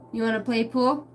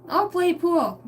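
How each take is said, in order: First: Said in the usual way. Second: Sudden eager yes, much higher; suddenly keen, pitched up high. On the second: Acted. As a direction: jump at the chance to play pool. Switching answer, voiced eagerly.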